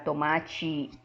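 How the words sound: The final t sounds like ch. This is how Brazilian Portuguese speakers say it.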